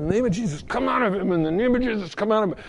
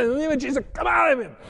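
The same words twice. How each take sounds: First: A firm retold rebuke, a little raised; commanding prayer. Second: Much higher, climbing rebuke of a demon; forceful command. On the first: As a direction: cast it out, steady and insistent. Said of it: "and I just said". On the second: Retold or imitated. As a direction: drive it out at full force. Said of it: "I said".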